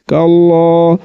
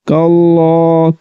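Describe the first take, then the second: Both takes have the same delivery.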